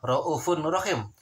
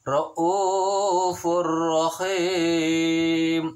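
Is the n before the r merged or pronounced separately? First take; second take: pronounced; merged. First: The n sound is pronounced separately before r. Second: The n merges into a doubled r sound. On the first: "Tulisannya adalah Ra'ufun Rahim" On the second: "tetapi dibacanya adalah Ra'ufur Rahim"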